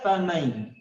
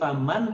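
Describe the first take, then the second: First: The n merges into the following y. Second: The n sound is clearly pronounced. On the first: The speaker calls it right. "tapi masuk ke huruf ya" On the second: The speaker calls it wrong. "bacanya bukan lagi faman"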